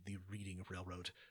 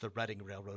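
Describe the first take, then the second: First: The first syllable of Reading sounds like 'read'. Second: The first syllable of Reading sounds like 'red'. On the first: The speaker calls it wrong. "which everybody I ever knew growing up said wrong" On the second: The speaker calls it right. "why would we know that it's the Reading Railroad"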